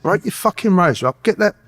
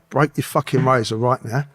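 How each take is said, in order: First: Insistent, higher-pitched command; urgent repeated order. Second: Said in the usual way. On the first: Retold or imitated. Prisoner repeats himself to a baffled cellmate, urgent and insistent. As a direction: press the order home, pitched up.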